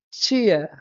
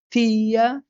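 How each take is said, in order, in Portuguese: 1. Começa com um som parecido com "ch". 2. Começa com um som de "t" simples. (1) "tem gente que pronuncia tia" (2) "às vezes a pessoa pronuncia o T"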